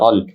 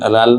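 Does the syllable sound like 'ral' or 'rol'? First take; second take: rol; ral. First: The r is heavy, with a rounded 'o' vowel. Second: The r is light, with an open 'a' vowel. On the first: The speaker calls it right. "রাল না হয়ে রল" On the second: The speaker calls it wrong. "রাল না হয়ে রল"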